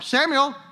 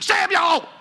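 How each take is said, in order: First: It is said softly and gently. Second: It is said loudly with a raised voice.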